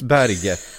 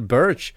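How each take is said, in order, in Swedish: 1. Namnet uttalas på ett norskt sätt. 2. Namnet uttalas på ett internationellt sätt. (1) "det är norskt, och det uttalas Berge" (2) "och så här uttalar man mitt namn, och så sa han Sander Börs"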